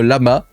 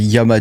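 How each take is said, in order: First: The word begins with an L sound. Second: The word begins with a Y sound. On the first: "j'aurais tendance à dire en tant que bon français" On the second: "je crois quand il y a deux L, ça se dit I"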